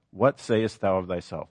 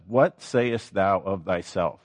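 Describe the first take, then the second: First: Said in the usual way. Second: Slow, each word weighed; slow, weighty reading. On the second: Shown as a demonstration. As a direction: lean on the question slowly, letting it sink in.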